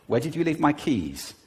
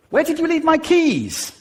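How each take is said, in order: First: Said in the usual way. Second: Very high, loud and frantic; high agitated pitch. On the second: Shown as a demonstration. Partner demanding the keys in rising panic. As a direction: voice leaps up on "my keys". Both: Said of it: "you can do it just with pitch".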